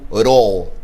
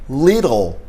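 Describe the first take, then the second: First: The word is said fast in a reduced form. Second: The word is said in full, carefully.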